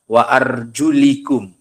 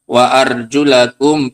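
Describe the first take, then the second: First: The vowel after arjul is an i sound. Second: The vowel after arjul is an a sound. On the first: The word is linked by adjacency to the head. "membacanya dengan kasroh" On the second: The feet are to be washed, like the face. "Karena dibaca fat, fathah, nasob"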